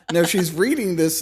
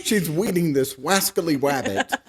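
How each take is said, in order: First: Said in the usual way. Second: "weeding" and "wascally wabbit" with w for r; cartoon hunter lisp, r turned to w; Elmer Fudd speech.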